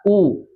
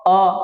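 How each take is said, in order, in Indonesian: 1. U jelas dengan bibir maju penuh ke depan. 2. Vokalnya terbuka dan terdengar seperti o. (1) "Semaksimal mungkin mayun ke depan" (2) "Jangan seperti o"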